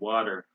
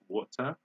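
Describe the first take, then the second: First: The middle sound is like a d. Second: The middle sound is a clear t. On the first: "We say water. So this T becomes D" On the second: "They say water in British"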